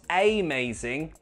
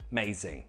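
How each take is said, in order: First: The first syllable has a full, clear vowel. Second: The first syllable has a weak schwa vowel. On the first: The speaker calls it wrong. "Not amazing, no" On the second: The speaker calls it right. "it's amazing"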